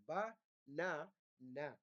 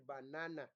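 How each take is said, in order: First: "Ba-na-na" very slowly, a pause after each syllable. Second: Said in the usual way. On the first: Shown as a demonstration. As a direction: break "Ba-na-na" into three separate drawn-out beats. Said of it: "So those are three syllables". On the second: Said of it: "The word banana has actually three syllables".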